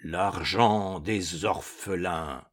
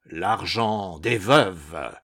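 First: Slow, low, soft mournful ghost; lugubrious ghost voice. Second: Slow, deep hollow ghost voice; cavernous ghost voice. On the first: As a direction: intone it gloomily. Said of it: "tout en proférant lugubrement". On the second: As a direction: drag it out from a tomb. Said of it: "d'une voix de plus en plus caverneuse". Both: A narrator's reading.

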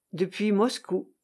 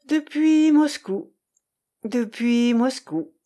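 First: Said in the usual way. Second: Slow, higher echo with drawn-out depuis; musing repetition. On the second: A narrator's reading. Irène echoes Grégoire's words after a pause, musing slowly. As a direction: repeat it lingeringly, with a pause between. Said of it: "répéta-t-elle après une pause".

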